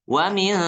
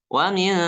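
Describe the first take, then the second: Both takes have the same delivery.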